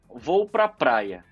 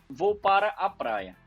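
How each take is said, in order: First: The middle words are shortened and run together. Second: Every word is said fully, without reduction. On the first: "a gente começa a reduzir" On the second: "É uma frase correta"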